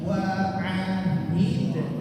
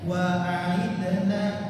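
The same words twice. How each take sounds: First: The h sound is clearly pronounced. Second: The h sound is weak and unclear. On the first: The speaker calls it right. "huruf H dibaca jelas" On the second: The speaker calls it wrong. "jangan dibaca"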